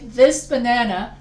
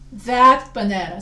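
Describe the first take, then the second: First: "this" punched louder in "this banana"; stress on THIS. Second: "that" hit loud in "that banana"; stress on THAT. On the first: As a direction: lean hard on "this". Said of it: "A demonstrative pronoun shows location". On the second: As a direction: lean hard on "that". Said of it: "if the banana is located far away". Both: Shown as a demonstration.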